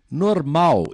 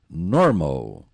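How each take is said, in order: First: The stress is not on the first syllable. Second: The stress is on the first syllable. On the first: This is the Portuguese word. "Em português é igualzinho" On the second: This is the English word. "Primeira sílaba"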